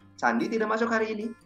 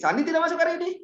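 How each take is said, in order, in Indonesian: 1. Diucapkan dengan nada tanya. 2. Diucapkan dengan nada terkejut. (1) "itu bukan informasi lagi. Saya nanya" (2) "saya bukan nanya, teman-teman. Saya terkejut"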